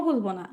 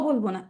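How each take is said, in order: No difference in how they are said.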